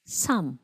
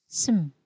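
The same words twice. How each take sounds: First: "Some" said as full "sʌm" with a falling tune; full vowel, clear "sʌm"; strong form. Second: "some" reduced to "səm", short and soft; quick schwa "səm"; weak form. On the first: Teacher reads the strong form for students to repeat. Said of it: "read each word first in its strong form". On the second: Teacher reads the weak form for students to repeat. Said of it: "then the example in its weak form". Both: Shown as a demonstration.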